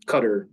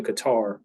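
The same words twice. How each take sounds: First: Qatar said like the word cutter; Qatar pronounced CUT-er. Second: Qatar said as kuh-TAR, stress on the second syllable; Qatar pronounced kuh-TAR. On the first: Speaker offering the other pronunciation, Qatar as CUT-er. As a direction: stress the first syllable of Qatar, CUT-er. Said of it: "pronounce it". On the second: Speaker recalling teaching abroad, Qatar as kuh-TAR. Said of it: "depending on how you pr". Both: Shown as a demonstration.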